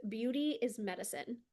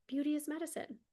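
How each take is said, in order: First: Said in the usual way. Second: Dreamy echo. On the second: Shown as a demonstration. Coach repeating her mantra to viewers, higher and dreamy. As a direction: echo it back high and savoring.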